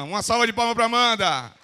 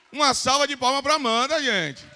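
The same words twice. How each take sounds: First: Loud applause call. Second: Louder, higher applause call. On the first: Calling the audience to applaud. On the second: Repeats the call, higher and rising. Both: Real, not acted.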